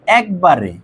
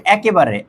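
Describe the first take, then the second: First: "একবারে" with k running straight into b; three syllables, ek-ba-re, in "একবারে"; correct form without vowel. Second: "একেবারে" with an added e after ek; four syllables, e-ke-ba-re, in "একেবারে"; wrong form with extra vowel. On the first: Teacher corrects the word for students, "একবারে" said as ek-ba-re. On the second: Teacher warns students off a wrong word, extra-vowel pronunciation of "একেবারে". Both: Shown as a demonstration. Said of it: "not একেবারে".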